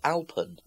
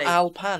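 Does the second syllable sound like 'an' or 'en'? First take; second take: en; an. First: The second syllable has an 'e' vowel. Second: The second syllable has an 'a' vowel. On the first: The speaker calls it right. "It's Alpan" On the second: The speaker calls it wrong. "It's not Alpan, is it?"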